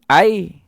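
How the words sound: Said in a Kelantan dialect accent. "Kalau orang Kelantan sebut air"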